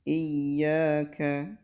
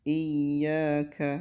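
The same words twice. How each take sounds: Both takes have the same delivery.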